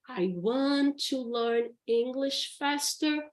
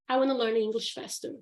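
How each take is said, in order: First: Want to is said in full, two words. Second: Want to is reduced to a quick wanna. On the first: "instead of saying" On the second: "would want to becomes wanna"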